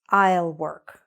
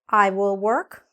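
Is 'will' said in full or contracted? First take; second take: contracted; full. First: Will is shortened and joined onto I. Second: Will is said as a full separate word. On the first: The speech is informal. "We say I'll instead of I will" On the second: The speech is formal. "That's when it's formal and you're using the full form"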